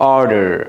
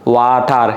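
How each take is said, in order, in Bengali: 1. এটি আমেরিকান উচ্চারণে বলা হয়েছে। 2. এটি বাংলাদেশি উচ্চারণে বলা হয়েছে। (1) "আমেরিকানরা বলে" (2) "আর আমরা বলি কি?"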